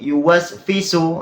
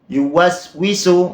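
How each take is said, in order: First: The consonant before 'isu' is an F sound. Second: The consonant before 'isu' is a W sound. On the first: The speaker calls it wrong. "Ini sudah fatal kesalahannya" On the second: The speaker calls it right. "Huruf wawu diganti huruf fa"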